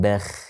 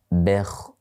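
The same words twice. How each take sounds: First: The final sound is thin and light. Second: The final sound is thick and deep. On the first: The speaker calls it wrong. "bukan bekh... perbedaan antara tipis dan tebal" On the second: The speaker calls it right. "Kita perhatikan sedikit mulut kita ya"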